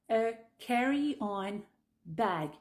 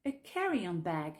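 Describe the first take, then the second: First: "a carry-on ... bag" slow with a break before bag; unlinked, word by word. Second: "a carry-on bag" in one joined phrase; words linked. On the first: Teacher introduces carry-on bag slowly, words apart. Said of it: "Pense à bien lier les mots". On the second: Teacher shows linking in carry-on bag, joined up. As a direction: run carry-on into bag without a break. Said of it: "Pense à bien lier les mots entre eux". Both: Shown as a demonstration.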